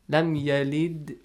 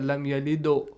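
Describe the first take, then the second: First: The final d is light with no rounded vowel. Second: The final d is heavy with a rounded vowel. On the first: The speaker calls it right. "You say" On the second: The speaker calls it wrong. "You don't say lam yalido"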